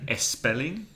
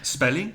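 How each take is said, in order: First: An extra e sound comes before the s. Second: The word starts directly with the s sound. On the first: The speaker calls it wrong. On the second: The speaker calls it right.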